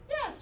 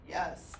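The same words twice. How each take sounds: First: It is said in a higher, lighter voice. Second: It is said in a deep, low voice. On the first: "with our lady voice" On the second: "man deep voice"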